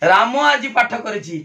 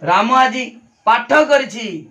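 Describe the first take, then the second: First: The stress falls on the word राम. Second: The stress falls on the word पाठ. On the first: Nobody other than this person did it. "राम उपरे गुरुत्व देली" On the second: This activity was done rather than some other one. "अन्य दिने से पाठ करेनी से चित्र करे"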